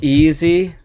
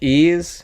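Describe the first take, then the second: First: The name is said with two syllables. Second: The name is said with one syllable. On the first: The speaker calls it wrong. "if you ever called me like easy, like Boyka, that is incorrect" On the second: The speaker calls it right. "It is like ease, as in"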